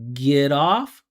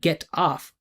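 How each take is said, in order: First: The two words run together smoothly. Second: The two words are said separately. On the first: The speaker calls it right. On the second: The speaker calls it wrong.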